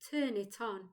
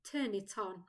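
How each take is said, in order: The two takes are said the same way.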